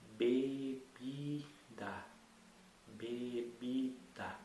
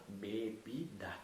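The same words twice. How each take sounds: First: "bebida" stretched out very slowly, syllable by syllable. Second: Said in the usual way. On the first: Shown as a demonstration. Teacher sounding out a word for a child, very slow. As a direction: draw out "bebida" so each syllable is heard. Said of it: "você agora vai repetir isso". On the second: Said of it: "a gente precisa da consoante junta".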